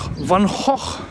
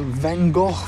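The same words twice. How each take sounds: First: The name is pronounced the Dutch way. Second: The name is pronounced the usual English way.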